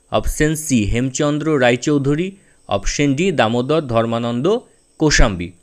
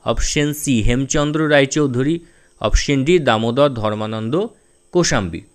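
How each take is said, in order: Both takes have the same delivery.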